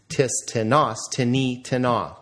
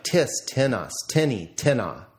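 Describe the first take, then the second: First: "Tis" unaccented, then "tinas", "tini", "tina" stressed on the last syllable; tis, ti-NAS, ti-NI, ti-NA, stress at the end; second-syllable stress. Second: Accent the first syllable of "tinas", "tini", "tina"; TIS, TI-nas, TI-ni, TI-na, stress up front. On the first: Teacher showing how indefinite pronouns sound, stress on second syllable of "tinas, tini, tina". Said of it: "on the second syllable or no accent at all".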